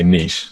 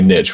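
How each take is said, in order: First: It is said so that it does not rhyme. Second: It is said so that it rhymes with riches. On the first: This is the form used in the UK. "we say niche. So the saying doesn't work" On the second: This is the form not used in the UK. "in the U K, we don't say niche"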